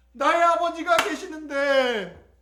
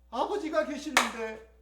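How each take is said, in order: First: Higher, slow, drawn-out longing; swelling longing. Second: Soft, slow, wistful realisation; wistful recollection. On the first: Prodigal son realises he has a father, higher and fervent. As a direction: let the longing swell, raised and stretched. Son repeats it with rising feeling. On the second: Starving prodigal remembers he has a father, quietly wistful. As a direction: remember your father, softly and slowly. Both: Acted.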